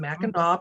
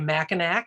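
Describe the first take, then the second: First: The name is said differently from its spelling. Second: The name is said just as it is spelled. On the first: This is how locals say it. The speaker calls it right. "Mackinac pronounced" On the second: This is how outsiders say it. The speaker calls it wrong. "most people who aren't from Michigan say Mackinac"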